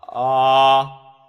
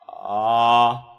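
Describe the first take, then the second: The two takes are said the same way.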